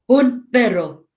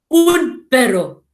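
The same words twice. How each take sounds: First: Said in the usual way. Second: Slow, barking delivery like a woof; louder, dog-like woof. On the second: Shown as a demonstration. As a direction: bark the words like a dog. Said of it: "sounds like we're trying to woof like a dog".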